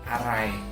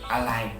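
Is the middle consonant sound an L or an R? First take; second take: R; L. First: The middle consonant is pronounced as R. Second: The middle consonant is pronounced as L. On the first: This is the formal form of the word. "itu adalah perubahan dari aray" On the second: This is the relaxed everyday form of the word. "Sering banget dong kita nemuin orang ngomongnya alay"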